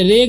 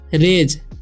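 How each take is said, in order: First: The word ends in a hard g sound. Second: The word ends in a soft j sound. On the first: The speaker calls it wrong. "इसे रेग ... नहीं पढ़ना है" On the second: The speaker calls it right. "तो हम क्या पढ़ेंगे? रेज"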